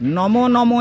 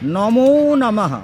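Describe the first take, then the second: First: The first word ends without an 'o' vowel. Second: The first word ends with an 'o' vowel. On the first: The speaker calls it wrong. "এরকম হয় না" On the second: The speaker calls it right. "ওকার যদি না দেওয়া হয়, মন্ত্রটা সম্পূর্ণ অশুদ্ধ"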